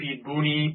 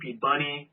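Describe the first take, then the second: First: The surname is said as two syllables, Booney. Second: The surname is said as two syllables, Bunny.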